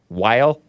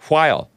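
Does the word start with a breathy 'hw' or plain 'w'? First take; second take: plain w; breathy hw. First: It starts with a plain w sound. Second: It starts with a breathy hw sound. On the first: The speaker calls it wrong. "It's not pronounced while" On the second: The speaker calls it right. "It's while"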